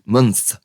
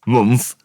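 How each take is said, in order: First: Said in the usual way. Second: Month with its vowel said like the u in put, mumth; accent slip. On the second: Real, not acted. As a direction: let your own accent colour Month, vowel as in put. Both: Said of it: "that's my accent coming out sometimes".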